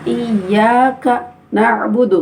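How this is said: The words are pressed apart with a stop. The speaker calls it wrong. "Jangan ditekan. ... enggak boleh"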